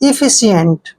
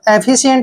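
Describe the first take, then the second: First: The first vowel is a short 'ih' sound. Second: The first vowel is an open 'eh' sound. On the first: "लेकिन that is correct इफिशियंट" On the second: "आप एफिशिएंट भी बोल सकते हैं"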